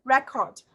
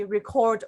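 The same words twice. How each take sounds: First: RECORD as REC-ord, pitched up on the first syllable; students' pronunciation. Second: RECORD as re-CORD, weight on the second syllable; verb pronunciation. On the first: Retold or imitated. Teacher quoting how students say the word, noun pronunciation. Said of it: "and the students say". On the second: Shown as a demonstration. Teacher showing the form students rarely say, verb pronunciation. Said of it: "they hardly ever say".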